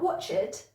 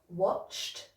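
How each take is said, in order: First: The ending adds an extra syllable. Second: The ending is a short T sound. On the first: The speaker calls it wrong. "not an extra syllable" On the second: The speaker calls it right. "it should be a T sound"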